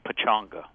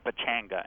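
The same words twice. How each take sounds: First: The middle syllable has a 'u' vowel, like 'chung'. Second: The middle syllable has an 'a' vowel, like 'chang'. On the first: The speaker calls it right. "as though there were you in the middle of there instead of a Chang" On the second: The speaker calls it wrong. "When you see it spelled, you want to say Pechanga"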